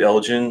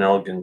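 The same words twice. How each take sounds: First: The g is a soft j sound. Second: The g is a hard g sound. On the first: This is how some Americans say it. "more of that soft J sound" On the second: This is the proper, traditional way. "the old school way is"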